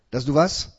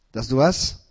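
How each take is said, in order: Both takes have the same delivery.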